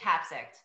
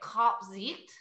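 First: The name is said with American English pronunciation. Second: The name is said with Dutch pronunciation. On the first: This is the speaker's own casual way of saying it. "I just say Kapzicht. I'm from Kapzicht. Long Island" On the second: This is how native speakers say it. "So it's Dutch. So they would say Kapzicht"

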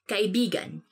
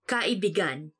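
First: The word has its usual, natural stress pattern. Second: The word has a twisted, altered stress pattern. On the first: It means friend. The speaker calls it right. "you have to say it like this" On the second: It means lover. The speaker calls it wrong. "when you twist it a bit and say it like this"

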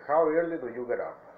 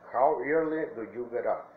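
First: The words are said quickly and run together. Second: The words are said slowly and separately. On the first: This is how it sounds in natural speech. "Lo voy a leer corrido" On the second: It is easier for learners to understand. "Yo lo leo más despacio para que ustedes logren entenderlo"

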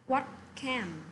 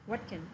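First: Both words are said fully and clearly. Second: The words run together with a weak 'can'. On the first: "What can often sounds like" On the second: "sounds like what can"

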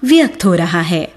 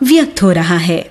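No difference in how they are said.

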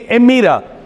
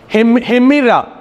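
First: The word begins directly with a vowel. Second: The word begins with an h sound. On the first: "If there is no rough breathing mark, but it is a smooth breathing mark, it will be called emira" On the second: "Because it is rough, we call as hemira"

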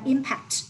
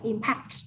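First: The stress is on the first syllable. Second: The stress is on the second syllable. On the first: It is the noun meaning an effect. "Danh từ là impact" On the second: It is the verb meaning to affect. "động từ là impact"

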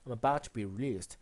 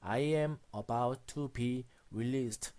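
First: All the words are linked into one chunk. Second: Each word is said separately, without linking. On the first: The speaker calls it right. "모든 단어들을 연결해서" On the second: The speaker calls it wrong. "이런 식으로 읽지 않고"

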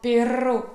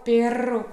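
The two takes are said the same way.

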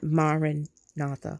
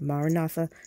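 First: It is said split into separate parts. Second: It is said as one unbroken word. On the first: The speaker calls it wrong. "not Maranatha" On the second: The speaker calls it right. "just one word"

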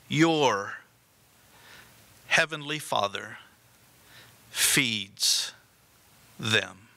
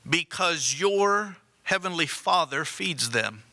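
First: It is said slowly and deliberately. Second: It is said at a normal pace.

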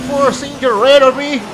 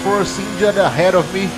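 First: It is said in a put-on Texan accent. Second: It is said in a plain, unmarked accent.

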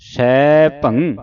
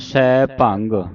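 First: It ends with a nasal hum. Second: It ends with a hard g sound. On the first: The speaker calls it right. "ਨੱਕ ਦੇ ਵਿੱਚ ਉਚਾਰਨ ਹੋਵੇਗੀ" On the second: The speaker calls it wrong. "ਅੱਗੇ ਗੱਗਾ ਲਾ ਦਿੰਨੇ ਆ"

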